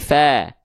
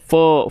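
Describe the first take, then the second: First: The vowel is thin, sounding like clear A. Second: The vowel is thick, sounding like O. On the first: The speaker calls it right. "tapi fa" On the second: The speaker calls it wrong. "dia tidak dibaca fo"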